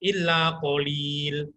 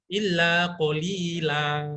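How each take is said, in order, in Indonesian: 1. Frasa berakhir mendadak pada konsonan l. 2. Frasa berakhir dengan vokal a panjang yang ditarik. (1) "Salah itu" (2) "Bacaan mat panjang"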